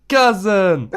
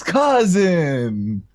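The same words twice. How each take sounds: First: Put-on high, loud accented call; playful full-voiced shout; top-of-lungs shout. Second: High, drawn-out demo call; a restrained imitation of hollering; top-of-lungs call. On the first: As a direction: holler it out on request. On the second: Shown as a demonstration. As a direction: call it out long and high, Niko-style. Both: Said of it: "say at the top of your lungs".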